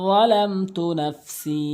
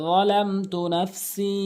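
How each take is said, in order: No difference in how they are said.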